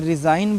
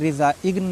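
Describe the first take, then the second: First: The g is silent in this word. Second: The g is sounded in this word. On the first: The speaker calls it right. "इसमें रिज़ाइन बोलना है, जी silent है" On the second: The speaker calls it wrong. "रिजा इग्न नहीं बोलना है"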